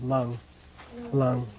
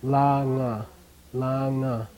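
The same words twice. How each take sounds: First: Lung, closing on ng with no final vowel; one syllable. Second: Langa, drawn out as lang-a; two separate syllables. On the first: Teacher showing the suffix losing its vowel, one-syllable lung. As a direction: stop "lung" on the ng, nothing after. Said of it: "loses its natural A vowel". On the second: Teacher reading it as if dotted, two-syllable langa. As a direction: sound the final "a" of "langa" as its own syllable. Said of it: "if there was another dot here". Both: Shown as a demonstration.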